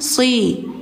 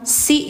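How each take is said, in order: First: The s sound is heavy, with the tongue raised. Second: The s sound is light, with the tongue flat. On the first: The speaker calls it right. "tapi si. Lidah dalamnya diangkat" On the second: The speaker calls it wrong. "jangan si ya"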